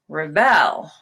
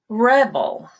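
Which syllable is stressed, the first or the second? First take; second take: second; first. First: The stress is on the second syllable. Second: The stress is on the first syllable. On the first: It is a verb. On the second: It is a noun.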